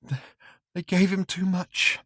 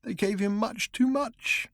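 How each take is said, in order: First: High, small frightened whimper; thin pleading whimper; tiny whimper. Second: Drugged man, despairing. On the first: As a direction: whimper it out like a broken man. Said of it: "he said in a tiny whimper". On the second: Drugged man repeats, slower. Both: Acted.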